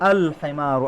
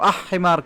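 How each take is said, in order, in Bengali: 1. 'l' ধ্বনিটি স্পষ্টভাবে উচ্চারিত হয়। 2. h-এর আগে 'l' ধ্বনিটি লোপ পায়।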